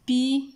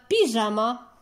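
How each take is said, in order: First: "Pyjama" with long pauses between py, ja and ma; syllable by syllable. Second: Said in the usual way. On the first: Shown as a demonstration. Teacher dividing the word for pupils, syllable by syllable. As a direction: break "Pyjama" into three isolated syllables. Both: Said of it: "les syllabes qui forment les mots".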